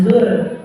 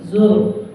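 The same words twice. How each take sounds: First: "zur" ending on a light r; thin r. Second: "zur" ending on a heavy r; thick r. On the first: Teacher showing what to avoid, thin r. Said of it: "tafkhim jangan zur". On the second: Teacher showing correct sound, tafkhim r. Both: Shown as a demonstration.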